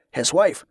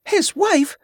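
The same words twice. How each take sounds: First: Said in the usual way. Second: Much higher-pitched, incredulous question; indignant exclamation. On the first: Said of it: "Barza explained". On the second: A narrator's reading. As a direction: exclaim it in high-pitched disbelief. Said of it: "exclaimed a woman".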